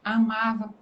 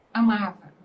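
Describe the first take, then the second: First: Said in the usual way. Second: Second "amava." said louder with a firm fall; emphatic repeat. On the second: Shown as a demonstration. Speaker insisting on her love for the school, hitting "amava." louder. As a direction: lean hard on "amava.".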